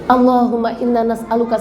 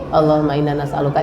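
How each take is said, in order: First: It is said with feeling and emphasis. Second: It is said flatly with no emphasis. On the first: The person is truly asking for something. The speaker calls it right. "Tapi kalau lagi berdoa" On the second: The words are merely being read. The speaker calls it wrong. "Datar, gak ada ekspresi, gak ada penekanan"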